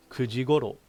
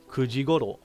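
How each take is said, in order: Both takes have the same delivery.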